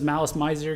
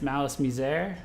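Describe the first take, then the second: First: The name is said as English spelling suggests. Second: The name is said with a French-style ending. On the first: It is read the way it looks on paper. "they know them as Malice Miser because it reads like that" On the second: This is how the industry says it. "I was very specifically instructed by my co-owner and, and and friends who are really into them that it's Malice Misere"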